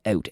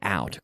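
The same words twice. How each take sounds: First: The word is said with a Canadian accent. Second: The word is said with an American accent. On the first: "That's my good Canadian accent" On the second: "But an American would say out"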